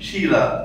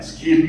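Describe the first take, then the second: First: The name begins with an sh sound. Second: The name begins with an sk sound. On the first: The speaker calls it right. "కాదు షీలా" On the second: The speaker calls it wrong. "స్కీల్ కాదు"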